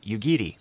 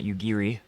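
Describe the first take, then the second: First: The middle consonant falls between R and L. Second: The middle consonant is an English R sound. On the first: The speaker calls it right. "It is something that is in between" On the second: The speaker calls it wrong. "there really is no R sound"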